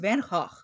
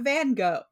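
First: The name is said in a Dutch way. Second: The name is said in an anglicized way. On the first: The speaker calls it right. "It's Van Gogh. ... because it's Dutch" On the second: The speaker calls it wrong. "It's not Van Gogh"

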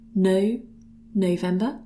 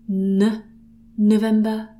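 First: The first syllable has a full 'no' vowel. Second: The first syllable is reduced to a short 'n'. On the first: "Sometimes you might hear it as No November" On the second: "Sometimes you hear this as N November"

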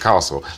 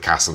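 First: It has a long southern posh vowel. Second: It has a short flat Lincolnshire vowel.

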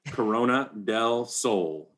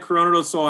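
First: The name is said slowly. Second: The name is said quickly. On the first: "I'll slow that down" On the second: "I say it fast because I'm out here"

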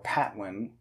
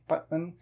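First: The P is aspirated with a puff of air. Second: The P is unaspirated with no puff of air. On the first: The speaker calls it wrong. "instead of saying Patwin or Patwin" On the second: The speaker calls it right. "you kind of say it with a muted P, like the Spanish P"

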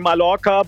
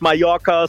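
First: The word is given a German-style pronunciation. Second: The word is given a Spanish-style pronunciation. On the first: The speaker calls it wrong. "It's like Germans say Mallorca" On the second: The speaker calls it right. "but it's Mallorca"

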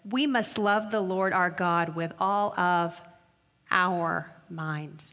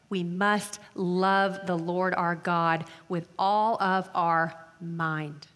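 First: The main stress falls on the word our. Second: The main stress falls on the word mind.

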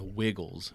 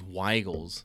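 First: The first vowel sounds like the 'i' in 'wig'. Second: The first vowel differs from the 'i' in 'wig'. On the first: The speaker calls it wrong. "Not Wiggles" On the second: The speaker calls it right. "It is spelled W. Is it W E I G L E S? That is Wiggles"

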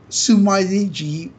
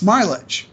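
First: The name is said with Japanese-style syllables. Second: The name is said with English sounds. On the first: The speaker calls it wrong. "it's not Sumaiji" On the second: The speaker calls it right. "you should pronounce it in English"

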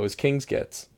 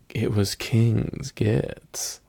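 First: It is said at normal conversational speed. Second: It is said slowly and deliberately.

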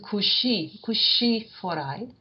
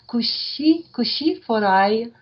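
First: The word is said the plain standard way. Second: The word is said higher, in the Auvergnat way. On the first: "as opposed to" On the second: "Higher pitch, almost"

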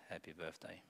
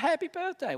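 First: It is said flatly and mumbled. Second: It is said brightly and with a smile. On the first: The speaker says it without real feeling. The speaker calls it wrong. "We don't say, Or we mumble it" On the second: The speaker means it wholeheartedly. The speaker calls it right. "With joy, we smile"

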